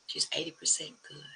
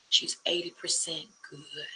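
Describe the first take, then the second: First: Soft whispered echo of the line; hushed whisper for emphasis; whispered repeat. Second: Said in the usual way. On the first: Shown as a demonstration. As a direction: breathe it again as a quiet whisper.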